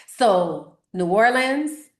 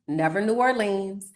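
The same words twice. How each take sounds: First: Slow "New Orleans", louder, rising at the end; correct pronunciation. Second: "New Orleans" with a full "-leens" ending, stress on "New"; wrong pronunciation. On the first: Teacher drills the right "New Orleans", slow and emphatic. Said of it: "never Nolans, never New Orleans". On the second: Teacher shows the wrong "New Orleans" to avoid. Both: Shown as a demonstration.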